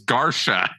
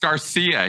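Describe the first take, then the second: First: The name is said in a distorted way. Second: The name is said the usual standard way. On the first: This is how one person mispronounced it. The speaker calls it wrong. "He said it was Garcia" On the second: This is how most people say it. The speaker calls it right. "he couldn't pronounce Garcia"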